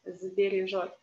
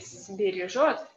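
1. Слово начинается с звонкого звука з. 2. Слово начинается с глухого звука с. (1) "should be transformed to z" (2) "So you cannot say"

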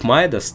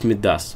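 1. Ударение падает на первый слог. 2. Ударение падает на последний слог. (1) "ударение идет на первый слог" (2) "ударение идет на последний слог"

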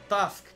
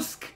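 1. Гласный — открытый звук 'a'. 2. Гласный — округлённый звук 'u'.

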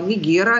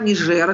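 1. Средний согласный — твёрдый звук г. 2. Средний согласный — звук ж.

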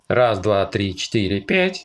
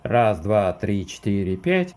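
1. Аудио необработанное, прямо из приложения для записи. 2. Аудио обработано фильтрами в монтаже. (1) "Проверка микрофона, подключенного к телефону во внешнем программном обеспечении Filmic Pro" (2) "в внешнем программном обеспечении на монтажке с применением фильтров"

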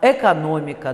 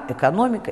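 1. Первый гласный — полный, чёткий 'e'. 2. Первый гласный редуцирован до 'y' с оттенком 'e'. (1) "может произноситься как безударный «э»" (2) "произносится «ы» с призвуком «э»"

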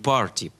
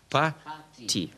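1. Слово произносится со звуком Р. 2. Слово произносится без звука Р.

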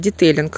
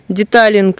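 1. Второй слог произносится как 'tey'. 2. Второй слог произносится как 'ta'. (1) "Ну ладно, детейлинг" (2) "не умею выговаривать"

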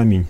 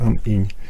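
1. Слово произносится плавно, как одно целое. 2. Слово разделено на две отдельные части. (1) "Это похоже на аминь" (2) "только ам-инь. Что там выделяется, что есть ам, а есть инь"

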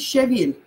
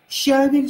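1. Ударение на втором слоге. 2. Ударение на первом слоге. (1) "А или «е»?" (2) "А или «е»?"

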